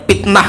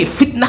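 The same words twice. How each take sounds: First: "fitnah" said with p, as "pitnah". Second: Said in the usual way. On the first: Shown as a demonstration. Teacher shows the regional slip, "fitnah" as "pitnah". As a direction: swap the f of "fitnah" for a p. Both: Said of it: "Nggak bisa V".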